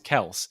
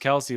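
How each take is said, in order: First: The name ends with an 's' sound. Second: The name ends with an 'ee' vowel sound. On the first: The speaker calls it right. "it's actually pronounced Kels" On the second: The speaker calls it wrong. "Everyone calls him Travis Kelsey"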